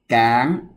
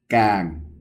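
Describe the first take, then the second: First: It carries the tone of mai tri. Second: It carries the tone of mai ek. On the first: "máy tri cán" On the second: "máy ẹt càng"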